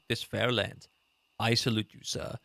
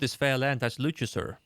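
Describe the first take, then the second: First: There is a clear pause after 'land'. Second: There is no pause after 'land'. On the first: The speaker calls it right. "It should have been like" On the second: The speaker calls it wrong. "there wasn't really a pause between that"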